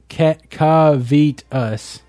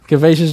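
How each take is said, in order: First: The middle syllable is said as long 'veet'. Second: The middle syllable is said as short 'vet'. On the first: The speaker calls it wrong. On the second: The speaker calls it right.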